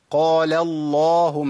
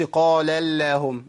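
First: اللهم with a thick, full-mouthed lam, slow and louder; heavy lam. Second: اللهم with a thin light lam, the wrong way; mock wrong light lam in اللهم; light lam mistake. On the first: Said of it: "يبقى اقول ايه؟". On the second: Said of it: "ما ينفعش". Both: Shown as a demonstration.

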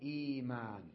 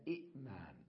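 First: إيمان with a long, slow ee at the start; hamza turned to ya. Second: إئمان softer, with short i, catch, then maan; two separate hamzas. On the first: Teacher showing what it became, long ee. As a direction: stretch the first vowel of إيمان. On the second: Teacher showing the form before change, with catch. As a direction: break إئمان after the first i. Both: Shown as a demonstration. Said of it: "فصارت إيمان".

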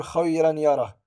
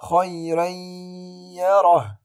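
First: خيرا يره with the nun pronounced, khayran yarah; clear tanween. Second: خيرا يره with tanween merged into ya, loud held nasal; nasalized merge. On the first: Teacher showing the wrong reading, plain. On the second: Teacher reciting the correct merge, loud. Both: Shown as a demonstration. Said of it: "ولا أقول".

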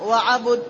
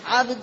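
First: وعبد said wa-'abud, u after b; two-syllable 'abud in وعبد; damma on the ba. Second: عبد said 'abd, no vowel after b; one-syllable عبد, 'abd; sukun on the ba. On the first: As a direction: put a short u in وعبد between b and d. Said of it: "وعبد بضمها". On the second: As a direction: close عبد straight from b to d. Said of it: "بسكون الباء". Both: Shown as a demonstration.

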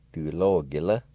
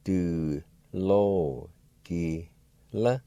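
First: Said in the usual way. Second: Du lo ki la drawn out very slowly; careful slow model of Du lo ki la. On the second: Shown as a demonstration. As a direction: stretch every syllable of Du lo ki la. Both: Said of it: "Pronounced like this".

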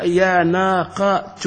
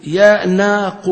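First: يا ناقة said slowly, keeping the final ة; يا ناقة spelled out slowly in full; full original form. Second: يا ناق drawn out slowly and louder, the final ة dropped so it ends on ق; يا ناق said slowly, ending on a bare ق; clipped vocative. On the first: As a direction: draw out يا ناقة with its ending intact. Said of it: "مثلًا نقول يا". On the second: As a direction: stretch out يا ناق and stop on the ق. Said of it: "هو أصلها يا ناقة". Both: Shown as a demonstration.

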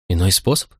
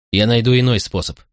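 First: Mildly incredulous echo, rising at the end; a touch of tearful amazement; astonished sob. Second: Said in the usual way. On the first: A narrator's reading. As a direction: lift "способ" into a disbelieving question. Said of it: "всхлипнула изумлённо Помпония".

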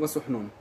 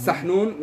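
First: وسحنون said "wa-suḥnūn", with a "u" after the s; ضم السين. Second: سحنون said "saḥnūn", with an "a" after the s; فتح السين. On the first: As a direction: round the first vowel of وسحنون: wa-suḥ-noon. (وسحنون بضم السين) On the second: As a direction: open the first syllable of سحنون: saḥ-noon, spoken slowly. (سحنون بفتح السين، ببطء) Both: Shown as a demonstration. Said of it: "ضم السين وفتحها".

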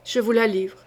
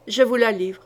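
First: Mild shiver in the voice, giving her up; a hint of shaking as he hands her over; trembling surrender. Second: A touch of grim resolve, repeated; understated growl, firm and steady; mild growl. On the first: Duke, shivering, hands the rival to the queen. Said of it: "tout grelottant". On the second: Acted. Duke repeats to the queen, lightly growled. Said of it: "gronda-t-il".

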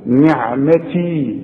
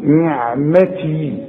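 First: نعمتي very slow, with a clear kasra on the ن; slow recitation. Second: نعمتي very slow, with the ن clearly in kasra; slow recitation. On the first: Teacher repeats the word slowly for his student. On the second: Teacher drills the kasra on the ن for his student. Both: Shown as a demonstration. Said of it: "شوف النون دي بكسرها ازاي".

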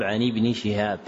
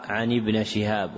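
First: ابن said "ibni"; kasra on nun. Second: ابن said "ibna"; fatha on nun. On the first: Teacher giving the correction, ابن with final kasra. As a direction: end ابن in a short "i". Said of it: "والصواب". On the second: Teacher citing the printed error, ابن with final fatha. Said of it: "وقع". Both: Shown as a demonstration.

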